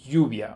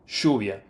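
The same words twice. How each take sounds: First: The double L sounds like a soft 'y'. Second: The double L sounds like 'sh'. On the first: This is how others on the continent say it. "it would be lluvia, which is a softer sound" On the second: This is the River Plate accent of Argentina and Uruguay. "for me, it sounds like a S H, sh"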